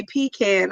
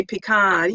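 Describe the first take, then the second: First: "pecan" said PEE-can, ending like "can"; pronunciation of pecan. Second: "pecan" said pee-KAHN, ending in "kahn"; pronunciation of pecan. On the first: Host echoing a viewer's way of saying it, "pecan" as PEE-can. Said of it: "oh, you say pecan". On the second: Host comparing with a viewer's way, "pecan" as pee-KAHN. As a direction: say "pecan" with a broad AH at the end. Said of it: "I say pecan". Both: Shown as a demonstration.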